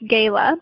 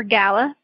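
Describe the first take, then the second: First: "Gala" said as GAY-luh; alternative pronunciation. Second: "Gala" said as GAL-uh; alternative pronunciation. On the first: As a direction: say "Gala" with a long A, as in gale. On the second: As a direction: say "Gala" with an open A, not as in gale. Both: Shown as a demonstration. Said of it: "however you pronounce it".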